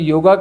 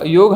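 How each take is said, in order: First: The word ends with an added 'a' vowel. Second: The word ends on the final consonant. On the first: This is the Western form, which people rate higher. "उन्होंने योगा कहा" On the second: This is the native Indian form of the word. "योग हमारा है"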